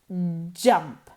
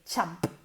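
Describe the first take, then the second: First: The first consonant is voiced, like English j. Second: The first consonant is voiceless, like English ch. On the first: "Es como una C H, ok, la boca tiene que ir en la misma posición que una C H, pero moviendo las cuerdas vocales" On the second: "imaginaros que se, se pronuncia C H A M P, champ"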